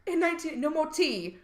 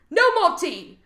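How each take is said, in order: First: Lightly voiced British lament; mock British accent. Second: Loud, high mock-British cry; mock British outcry. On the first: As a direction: put on a mild fake British accent. Mock British prison punishment, first take. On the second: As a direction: cry out in hammed-up British outrage. Mock British outcry, louder repeat.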